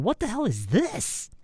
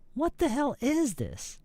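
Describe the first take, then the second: First: The stress falls on the word this. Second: The stress falls on the word is. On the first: "the stress should go on is or this" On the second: "the stress should go on is or this"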